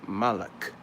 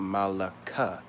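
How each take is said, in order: First: The word ends on a final k consonant. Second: The word ends on an added final a vowel. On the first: The speaker calls it right. "You drop the A sound" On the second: The speaker calls it wrong. "Because you say Malaka, you might be confused"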